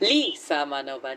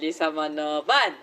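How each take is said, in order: First: The stress is on the first syllable. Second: The stress is on the fifth syllable. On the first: "the emphasis shifts starting from the first syllable" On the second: "to the last"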